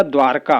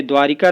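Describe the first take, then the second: First: द्वारका as 'dwaar-kaa', no i; corrected form. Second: द्वारिका in three syllables, 'dwaa-ri-kaa'; wrong form. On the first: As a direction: run r straight into k in द्वारका. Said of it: "होता है". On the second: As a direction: sound the i after r in द्वारिका. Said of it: "नहीं होता". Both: Shown as a demonstration.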